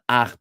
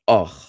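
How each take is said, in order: First: The vowel is an open ah sound. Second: The vowel is a rounded oh sound. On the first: The speaker calls it wrong. "would be not ach" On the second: The speaker calls it right. "but och"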